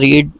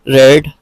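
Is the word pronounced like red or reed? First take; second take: reed; red. First: The vowel is a long ee sound. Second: The vowel is a short e sound. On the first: It is the present form of the verb. "रीड का मतलब पढ़ना।" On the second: It is the past form of the verb. "रीड लिखा ही ऐसे ही जाएगा और पढ़ा उसको रेड जाएगा।"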